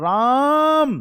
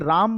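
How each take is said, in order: First: The vowel is stretched out far beyond normal length. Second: The vowel is held at ordinary long length. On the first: "तो कौन सा स्वर है भाई?" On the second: "ये दीर्घ स्वर है"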